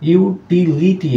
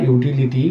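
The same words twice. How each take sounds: First: ইউটিলিটি split as "yu - ti - li - ti"; four separate higher-pitched beats on ইউটিলিটি; syllable by syllable. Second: Said in the usual way. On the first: Shown as a demonstration. Teacher counting four syllables, syllable-by-syllable. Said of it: "এখানে চারটা syllable রয়েছে". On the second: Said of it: "মানে হচ্ছে উপযোগ".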